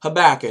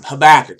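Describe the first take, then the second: First: Savoring the name again. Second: Relishing the name. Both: Shown as a demonstration. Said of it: "I like that name".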